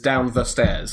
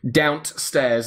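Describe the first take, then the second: First: The word 'the' is said in full. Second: The word 'the' is cut to a t sound.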